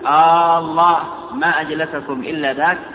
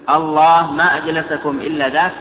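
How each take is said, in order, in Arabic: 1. تُمدّ الحركة الأولى وتُنطق طويلة. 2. تُنطق الحركة الأولى قصيرة. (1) "أو ممدودة" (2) "إما همزة مفردة"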